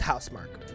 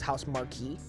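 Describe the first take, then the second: First: The name ends with a short 'mark' sound. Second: The name ends with a two-syllable 'mar-kee' sound. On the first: The speaker calls it right. "it's pronounced Housemarque" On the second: The speaker calls it wrong. "I thought it was House Marquee"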